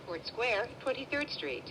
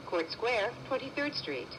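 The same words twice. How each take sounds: The two takes are said the same way.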